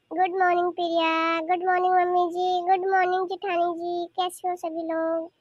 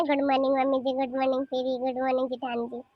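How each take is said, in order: First: Singsong family hello; affectionate greeting. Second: Low, sour parody of a greeting; muttered mock good morning; mocking imitation. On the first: Acted. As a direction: greet each relative lovingly in turn. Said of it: "चाची इतने प्यार से बोल रही है". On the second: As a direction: mimic the daughter-in-law's English greeting with scorn. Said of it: "इसकी तो और अंग्रेजी छाट रही है".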